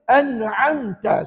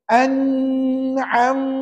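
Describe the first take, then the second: First: The nasal hum on the m is very short. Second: The nasal hum on the m is held long. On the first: The speaker calls it right. "Sebut sikit sangat bunyi sengau dia" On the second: The speaker calls it wrong. "ah yang tu tak boleh puan-puan"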